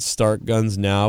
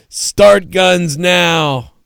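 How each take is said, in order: First: "Start guns now" read slow and level; slow deadpan read of the sign. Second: "Start guns now" shouted higher, louder and drawn out; loud slow punchline. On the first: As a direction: spell out "Start guns now" flatly, word by word. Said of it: "imagine if you had a sign". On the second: Punchline of bystander bit. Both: Shown as a demonstration.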